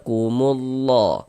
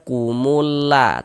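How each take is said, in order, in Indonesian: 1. Bunyi l-nya tebal dan berat. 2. Bunyi l-nya tipis dan ringan. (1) "tapi dibaca kumullah. Nah, di ditebalkan" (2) "Jangan dibaca kumulla"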